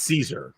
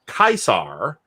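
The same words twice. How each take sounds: First: The word begins with a soft S sound. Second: The word begins with a hard K sound. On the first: This is the later, non-classical pronunciation. The speaker calls it wrong. "and not" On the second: This is the classical pronunciation. The speaker calls it right. "The C is just always hard in Classical Latin"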